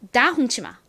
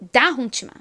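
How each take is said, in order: No difference in how they are said.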